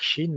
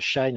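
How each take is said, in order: First: The vowel is pronounced like the English 'sheen'. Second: The vowel is pronounced like the English 'shine'. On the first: "faut dire Chine" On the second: "je prononce euh, Shine"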